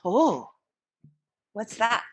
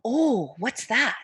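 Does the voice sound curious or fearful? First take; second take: fearful; curious. First: It sounds frightened and alarmed. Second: It sounds curious and interested.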